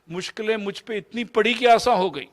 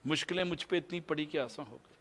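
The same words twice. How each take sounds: First: Higher and louder, آسان stressed; ringing first recital of the verse; emphatic recitation. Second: Much softer repeat of the line; quiet reflective repeat of the verse; soft echo. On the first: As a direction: declaim the line, leaning on آسان. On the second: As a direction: let it fall away to a near hush. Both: Shown as a demonstration. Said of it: "repeats the verse line twice".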